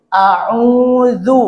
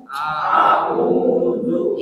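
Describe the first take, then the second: First: A'udzu drawn out with a rising end; model reading. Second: A'udzu breathed without voice; whispered. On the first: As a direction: read A'udzu out for the class to copy. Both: Shown as a demonstration. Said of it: "Coba dibaca".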